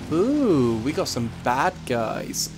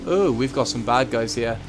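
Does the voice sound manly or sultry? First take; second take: sultry; manly. First: The voice sounds soft, sultry and suggestive. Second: The voice sounds deeper, firmer and manlier. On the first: The speaker calls it wrong. "That sounded like it was out of a porn film" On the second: The speaker calls it right. "Let's try that a bit more manly"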